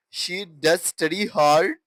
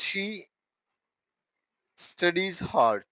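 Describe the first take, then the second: First: "does study" said firmly and emphatically; emphatic DOES. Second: Said in the usual way. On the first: Shown as a demonstration. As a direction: lean on "does" to stress the action. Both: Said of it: "Look at the emphasis".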